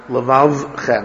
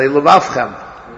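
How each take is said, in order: First: The second labial sound is said like v. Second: The second labial sound is said like f. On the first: The speaker calls it right. "You have to like sweat a little" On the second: The speaker calls it wrong. "If you're a little lazy, you'll say levavchem"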